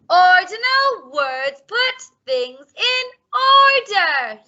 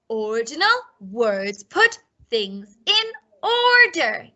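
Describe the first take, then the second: First: It is said very loudly. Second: It is said at normal volume.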